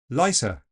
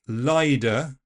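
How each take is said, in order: First: The T is replaced by an S sound. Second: The T is replaced by a D sound. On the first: "swap it completely for a fricative S" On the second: "A voiced D is also possible"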